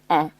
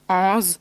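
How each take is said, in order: First: The final S is silent. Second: The final S is sounded. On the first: The speaker calls it right. "it's better to say pay or on" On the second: The speaker calls it wrong. "or ons"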